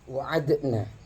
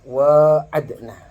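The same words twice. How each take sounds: First: The first vowel is short, without a lengthened a. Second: The first vowel is long, with a lengthened a. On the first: "itu membuang alifnya" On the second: "Sisanya qiraat sab'ah yang lain"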